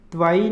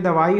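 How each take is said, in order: First: दवाई with the first vowel dropped, "dvai"; wrong pronunciation of दवाई. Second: दवाई with a full first vowel, "da-vai"; correct दवाई. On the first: Teacher showing students the error, दवाई as "dvai". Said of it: "नहीं होगा". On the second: Teacher giving the correct form, दवाई as "da-vai". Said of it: "पूरा रहेगा दवाई". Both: Shown as a demonstration.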